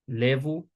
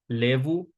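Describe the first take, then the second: The two takes are said the same way.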